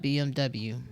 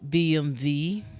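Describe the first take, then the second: First: The last letter is said as W. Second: The last letter is said as V. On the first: The speaker calls it wrong. "have been pronouncing B M W cor- incorrectly" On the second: The speaker calls it right. "it's pronounced as a V"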